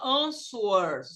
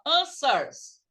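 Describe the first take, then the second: First: "answers" mispronounced with an audible w, "an-swers"; wrong sounded W. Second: "answers" with no w, like "an-sers"; correct silent W. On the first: Teacher warns students of the mistake, "answers" with the w pronounced. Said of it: "Você não fala answers". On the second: Teacher models the word for students, "answers" with a silent w. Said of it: "você fala answers". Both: Shown as a demonstration.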